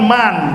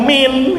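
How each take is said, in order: First: The word is said with an 'a' vowel. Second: The word is said with an 'i' vowel. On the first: The standard way of asking who. "harusnya kan man siapa" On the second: The Yemeni dialect way of asking who. "orang Yaman bilangnya min"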